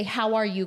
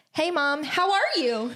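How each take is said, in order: First: "How are you?" with a falling end, no lift; plain English "How are you?" falling at the close; flat English question. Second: High sing-song "Hey, Mom, how are you?"; sing-song greeting to mom, pitched up; put-on lilt. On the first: Shown as a demonstration. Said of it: "in my language, I, you say". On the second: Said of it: "Why are you talking like that?".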